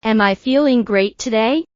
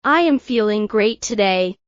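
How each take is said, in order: First: Questioning tune, climbing on "today"; rising question intonation. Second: Plain statement tune, settling down on "today"; falling statement intonation. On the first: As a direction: lift the pitch at the end of "today". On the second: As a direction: let the pitch fall towards "today". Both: Shown as a demonstration.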